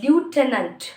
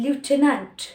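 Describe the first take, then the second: First: It is said in an American accent. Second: The same.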